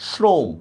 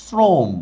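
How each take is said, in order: First: "শ্রম" opening on an sh sound; spelling pronunciation. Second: "শ্রম" opening on a hissed s; actual pronunciation. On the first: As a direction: say "শ্রম" as shrom. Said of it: "আমাদের বানান হিসাবে উচ্চারণটা হয়". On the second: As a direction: say "শ্রম" as srom, not shrom. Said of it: "আমরা করতেছি হচ্ছে". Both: Shown as a demonstration.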